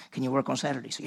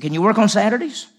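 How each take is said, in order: First: Calm, offhand boss. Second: Higher, louder keen question; eager boss who wants to play softball. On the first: Low-key Mr Hartman asks. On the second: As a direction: ask it bright and pushy. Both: Retold or imitated.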